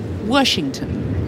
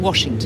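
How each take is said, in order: First: The first syllable has an r sound, like wersh. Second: The first syllable has no r sound, like wash. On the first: This is how many locals say it. "many Washingtonians, including me, actually pronounce it Washington" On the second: This is the usual way to say it. "Rather than Washington"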